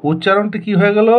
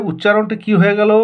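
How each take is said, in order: Both takes have the same delivery.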